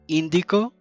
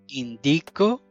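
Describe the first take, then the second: First: The stress is on the first syllable. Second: The stress is on the middle syllable.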